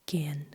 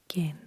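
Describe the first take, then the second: The two takes are said the same way.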